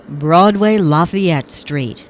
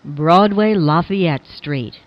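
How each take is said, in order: Both takes have the same delivery.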